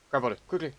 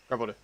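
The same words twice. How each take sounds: First: Urgent. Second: Said in the usual way. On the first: Real, not acted.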